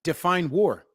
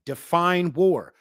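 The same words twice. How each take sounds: First: Said in the usual way. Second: Define war drawn out slowly, war falling hard; slow emphatic. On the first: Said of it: "repeated challenge". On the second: Shown as a demonstration. Challenging chat, slow emphatic Define war. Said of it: "I'll say it again".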